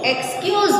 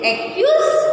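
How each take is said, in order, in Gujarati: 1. આ શબ્દ 'kyuz' પહેલાં 'ks' સાથે બોલાય છે. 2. આ શબ્દ 'ks' અવાજ વગર બોલાય છે.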